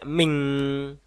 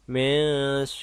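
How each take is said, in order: First: It ends with an ng sound. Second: It ends with a softened n sound. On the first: The speaker calls it wrong. "Juga tidak ming" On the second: The speaker calls it right. "tapi min"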